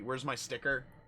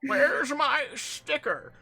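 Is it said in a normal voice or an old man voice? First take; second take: normal voice; old man voice. First: It is said in his normal voice. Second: It is said in a really old man voice.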